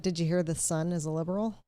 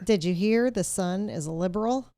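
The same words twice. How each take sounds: First: It is said quietly. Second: It is said loudly.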